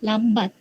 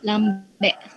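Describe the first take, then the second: First: It is pronounced in standard Malay. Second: It is pronounced in Negeri Sembilan dialect. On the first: "bahasa Melayu standard" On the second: "dialek negeri sembilan"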